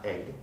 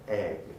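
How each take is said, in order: First: The vowel in the word is short. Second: The vowel in the word is lengthened. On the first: The speaker calls it wrong. "Not egg" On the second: The speaker calls it right. "so the e of egg is lengthened"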